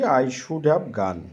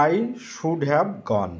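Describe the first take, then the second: First: Said in the usual way. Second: Each word of I should have gone spelled out slowly; slow, careful dictation. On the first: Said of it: "Should have মানে হচ্ছে উচিত". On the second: Shown as a demonstration. Teacher dictating the English sentence to students, slowly. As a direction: say it slowly so the class can write it down. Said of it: "কি লিখতে পারি ইংরেজিটি?".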